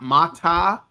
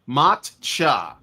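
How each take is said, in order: First: The middle consonant is a t sound. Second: The middle consonant is a ch sound. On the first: The speaker calls it wrong. "not mata" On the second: The speaker calls it right. "That's it"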